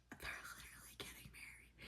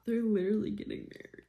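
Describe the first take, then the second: First: Whisper. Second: Excited squeal. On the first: Whispered repeat. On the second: Excited reaction, high. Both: Real, not acted.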